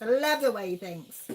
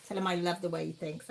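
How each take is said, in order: First: "love" leaned on and louder; emphatic repeat. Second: Said in the usual way. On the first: Real, not acted. Host echoes the viewer's line, stressing "love". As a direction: repeat it, hitting "love" harder.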